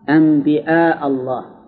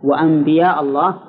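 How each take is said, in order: First: The word is said with a glottal stop. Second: The word is said with a y sound. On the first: "بالهمس" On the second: "بالياء"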